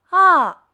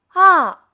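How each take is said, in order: No difference in how they are said.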